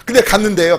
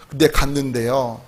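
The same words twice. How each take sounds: First: Said in the usual way. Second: Softer, lower, slower repeat of 근데 갔는데요; hushed slow retake. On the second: Shown as a demonstration. Pastor repeating the line to the congregation, low and slow.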